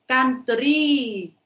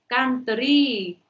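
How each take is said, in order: No difference in how they are said.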